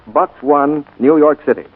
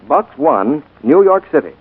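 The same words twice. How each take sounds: The two takes are said the same way.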